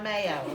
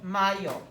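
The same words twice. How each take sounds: First: It is said like the English word for the spread. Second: It is said with a Spanish pronunciation. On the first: It names the sandwich spread. The speaker calls it wrong. "This is not a sandwich. It's not mayo" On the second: It names the month of May. The speaker calls it right. "It's mayo"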